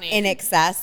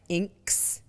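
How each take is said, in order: First: The name is said as three syllables, 'in excess'. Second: The name is said as one syllable, 'inks'. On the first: The speaker calls it right. "And then I'm like" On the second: The speaker calls it wrong. "They were like"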